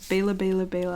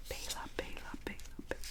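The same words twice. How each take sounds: First: Said in the usual way. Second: Very soft ASMR whisper; ASMR pronunciation. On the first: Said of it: "I'm gonna say that". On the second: Shown as a demonstration. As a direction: whisper the name over and over, barely audible. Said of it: "in an A S M R pronunciation video".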